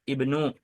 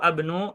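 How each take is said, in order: First: The word begins with an i vowel. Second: The word begins with an a vowel. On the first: The speaker calls it right. "melainkan ibnu" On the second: The speaker calls it wrong. "atau abnu"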